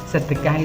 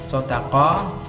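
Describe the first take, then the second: First: The word has a Surabaya-style pronunciation. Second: The word has an Arabic-style pronunciation. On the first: "sedekah itu bahasa Surabaya"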